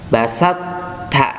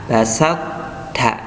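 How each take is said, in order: The two takes are said the same way.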